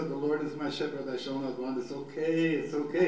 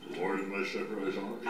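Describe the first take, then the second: First: Quick verse easing into lifted reassurance; reassuring self-talk. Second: Low, soft, rote mumble of scripture; lifeless recitation. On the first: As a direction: talk yourself gently through the verse. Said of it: "You have to talk to yourself". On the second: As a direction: drone the verse without any life. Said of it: "it doesn't become, it doesn't come alive". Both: Shown as a demonstration.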